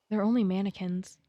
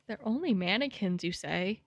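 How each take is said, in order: First: Said in the usual way. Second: Incredulous echo, dropping at the end; mock disbelief. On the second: Real, not acted. Streamer throwing the game's line back, mock disbelief. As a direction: echo it back with swooping pitch.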